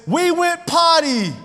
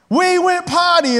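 First: High, slow toy announcement; toy potty voice. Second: High, slow disbelieving repeat; stunned echo. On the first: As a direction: read it like a cheerful toy. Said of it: "it says". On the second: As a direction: say it back in shock. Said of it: "I was like". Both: Retold or imitated.

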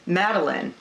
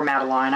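First: "Madeline" said MAD-uh-lin; Madeline ending -lin. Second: "Madeline" said MAD-uh-line; Madeline ending -line. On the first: Checking the character's name, "Madeline" ending in "lin". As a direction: say "Madeline" with a short final "lin". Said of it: "Or Madeline". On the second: Offering the other pronunciation, "Madeline" ending in "line". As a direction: rhyme the end of "Madeline" with "fine". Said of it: "you can interchange those". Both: Shown as a demonstration.

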